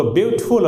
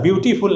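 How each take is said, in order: First: "ब्यूटीफुल" said as byoot-ful, no "tee"; two-syllable beautiful. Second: "ब्यूटीफुल" as byoo-tee-fool; wrong three-syllable beautiful. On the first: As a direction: drop the middle vowel of "ब्यूटीफुल": BYOOT-ful. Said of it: "दो syllable इसमें है". ("ब्यूटीफुल" दो syllable में, ब्यूट-फुल) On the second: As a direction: put a full "tee" inside "ब्यूटीफुल". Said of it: "ब्यूटीफुल नहीं". ("ब्यूटीफुल" तीन syllable में, ब्यू-टी-फुल) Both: Shown as a demonstration.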